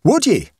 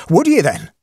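First: High, loud Irish exclamation; Irish accent. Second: High, loud Irish challenge; Irish accent. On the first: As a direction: cry it out in an Irish brogue. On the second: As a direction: press him in an Irish brogue. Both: Acted. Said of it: "he cried in his own unmistakable accents".

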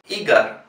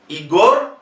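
First: Igar as "I-gar", O turned to A; falling Igar stressed on the I; hypothetical first-syllable stress. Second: Igor as "i-GOR", full O; rising Igor stressed on the end; final stress. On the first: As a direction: demonstrate Igar as the unused version. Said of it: "si fuese llana, se pronunciaría". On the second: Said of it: "si fuese llana". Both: Shown as a demonstration.

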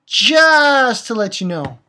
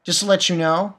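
First: Slower, louder, higher Just to let you know; mock warning to the character, said slowly; pointed repeat. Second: Said in the usual way. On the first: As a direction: lean hard on every word of Just to let you know. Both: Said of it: "Hey, asshole".

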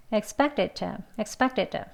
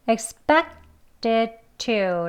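First: Fast expected to, to cut to a bare t; quick expected to, to reduced; quickly. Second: Slow expected to, every sound clear; slow careful expected to; slowly. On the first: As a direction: rattle off expected to, weak t. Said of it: "좀 빨리 발음하는 거죠". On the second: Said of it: "천천히 발음해서요". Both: Shown as a demonstration.

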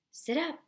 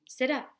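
First: Higher, louder repeated order; father repeats the order even louder. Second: Stern, louder father's order; firm command to get up; father ordering his son to sit up, stern. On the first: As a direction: raise it up another notch. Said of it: "Papa said even louder". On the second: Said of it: "Papa said sternly". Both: A narrator's reading.

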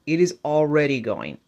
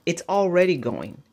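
First: "is" spelled out and leaned on; "It is" said in full, weight on "is"; stress on is. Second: Said in the usual way. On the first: Shown as a demonstration. Vlogger insisting to viewers, leaning on "is".

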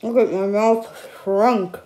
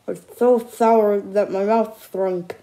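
First: Slow, lips pursed from sour; puckered mouth. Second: Slow, stress on so; puckered mouth. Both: Real, not acted. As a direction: talk with a shrunken puckered mouth.

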